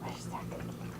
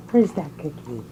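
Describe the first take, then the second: First: Unvoiced whisper. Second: Said in the usual way. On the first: Real, not acted. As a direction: whisper it teasingly. Teasing dog with a treat.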